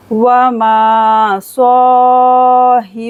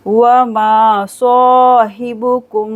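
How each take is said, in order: First: Slow, louder tajweed chant; Quranic recitation. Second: साहिबुकुम with Hibu said quickly. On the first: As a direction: recite it, drawn out. Recites verse. (धीमी तजवीद तिलावत) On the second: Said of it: "हिबु को जल्दी से पढ़ेंगे". (साहिबुकुम में हिबु जल्दी) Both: Shown as a demonstration.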